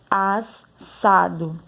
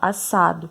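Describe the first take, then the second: First: The double s sound is exaggerated. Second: The s sound is said naturally. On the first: The speaker calls it wrong. "Mas a gente não fala assim, né?" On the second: The speaker calls it right. "A gente fala assado"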